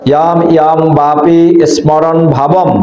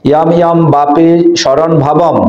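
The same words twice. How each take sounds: First: "স্মরণ" as smoron, sm cluster sounded; chanted model with "স্মরণ" as smoron; Sanskrit pronunciation. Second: "স্মরণ" as shoron, m silent; chanted model with "স্মরণ" softened to shoron; Bengali pronunciation. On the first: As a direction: recite "স্মরণ ভাবম" with an audible m after s. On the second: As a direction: recite "স্মরণ ভাবম" with sh and no m. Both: Shown as a demonstration. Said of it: "বা স্মরণ ভাবম বলো তোমরা".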